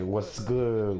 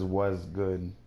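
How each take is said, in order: First: The t sound is pronounced clearly in what's. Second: The t sound is dropped, sounding like was. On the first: The speaker calls it right. "Say what's good, what's good, like that" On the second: The speaker calls it wrong. "Nobody says was good"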